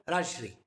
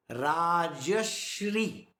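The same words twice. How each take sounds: First: "Rajshri" quick, no vowel between Raj and shri; wrong form. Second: "Rajashri" very slow, long Ra, short ja, long shri; correct, three syllables. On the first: Teacher quoting what people say wrongly, "Rajshri" said quickly. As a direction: run "Rajshri" together as two short syllables. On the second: Teacher showing the correct name, very slowly syllable by syllable. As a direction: stretch out "Rajashri", voicing the middle "ja". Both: Shown as a demonstration. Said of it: "That is wrong".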